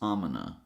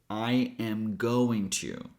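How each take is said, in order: First: The G is dropped and the words run together. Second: Every word is said in full. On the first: "eliminate the G sound and connect "I'm" with "gonna"" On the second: "the longest one"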